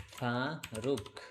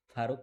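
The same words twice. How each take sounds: First: Faruk very slowly, split as ফা and রুক; drawn-out syllables. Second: Said in the usual way. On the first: Shown as a demonstration. Teacher sounding out Faruk while writing it, drawn-out syllables.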